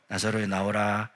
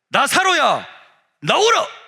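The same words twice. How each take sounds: First: It is said in a small, quiet voice. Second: It is said in a loud, shouting voice.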